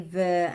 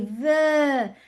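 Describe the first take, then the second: First: The word is said plainly, without emotion. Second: The word is said with strong, lively emotion. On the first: "I don't just say" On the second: "with the voice, with the face, with the emotion"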